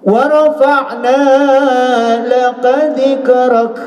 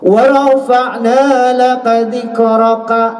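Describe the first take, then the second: First: The last word ends on a bare consonant. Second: The last word ends with a final vowel. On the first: The speaker calls it right. "ujungnya eh, seolah-olah ek" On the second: The speaker calls it wrong. "Cara membacanya bukan begitu"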